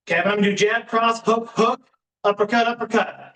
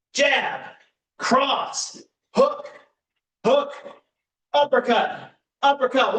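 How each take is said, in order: First: Said in the usual way. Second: Higher, punchy call of each punch; boxing coach calling combos. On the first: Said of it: "Three rounds of that". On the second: Acted. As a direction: bark each punch out for the class.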